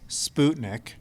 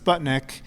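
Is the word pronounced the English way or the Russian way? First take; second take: Russian; English. First: It is said with a Russian pronunciation. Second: It is said with an English pronunciation. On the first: "in Russian it's Sputnik" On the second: "which we pronounce as Sputnik"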